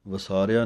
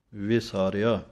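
First: ਵਿਸਾਰਿਆ starting va instead of vi; quick va-saar-ya for ਵਿਸਾਰਿਆ; wrong pronunciation. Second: ਵਿਸਾਰਿਆ starting on a clear vi; correct pronunciation. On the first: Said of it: "ਵਿਸਾਰਿਆ ਨਹੀਂ ਕਹਿਣਾ". (ਵਿਸਾਰਿਆ ਦੀ ਸਿਹਾਰੀ ਛੱਡ ਕੇ) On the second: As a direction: sound the short i in ਵਿਸਾਰਿਆ, vi-saa-re-aa. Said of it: "ਵਾਵੇ ਸਿਹਾਰੀ ਹੈ". (ਵਿਸਾਰਿਆ ਦੇ ਵਾਵੇ ਨੂੰ ਸਿਹਾਰੀ ਨਾਲ) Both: Shown as a demonstration.

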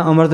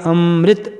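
First: ਅੰਮ੍ਰਿਤ said "aamart", r before the t; ਅੰਮ੍ਰਿਤ misread as "amart"; wrong pronunciation demo. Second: ਅੰਮ੍ਰਿਤ said "amrit", r blended into m; half r under m. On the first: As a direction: drop the i: ਅੰਮ੍ਰਿਤ as aa-mart. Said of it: "ਕੀ ਨਹੀਂ ਪੜ੍ਹਨਾ?". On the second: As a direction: hold the nasal, then mrit, in ਅੰਮ੍ਰਿਤ. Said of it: "ਮੰਮੇ ਦੇ ਪੈਰ 'ਚ ਰਾਰਾ ਅੱਧਾ ਉਚਾਰਨ". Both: Shown as a demonstration.

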